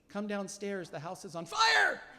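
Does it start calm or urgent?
calm. It starts calm and gets excited late.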